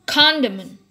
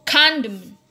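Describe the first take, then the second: The two takes are said the same way.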